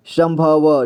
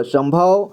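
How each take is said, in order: First: संभव split as "sam-bha-va"; संभव with final व voiced as "va"; sounded out. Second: Said in the usual way. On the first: Shown as a demonstration. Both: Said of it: "इसे पढ़ेंगे".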